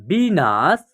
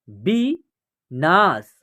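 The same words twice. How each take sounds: First: Said in the usual way. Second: विनाश drawn out, syllables apart; slow syllable by syllable. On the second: Shown as a demonstration. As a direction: read विनाश slowly in parts. (विनाश धीरे-धीरे टुकड़ों में) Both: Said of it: "या आप direct भी पढ़ सकते हैं".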